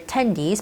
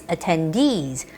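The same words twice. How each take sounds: First: The stress falls before the last syllable. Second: The stress falls on the last syllable. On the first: The speaker calls it wrong. "So it's not attendees" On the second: The speaker calls it right. "the stress normally goes onto those two E's"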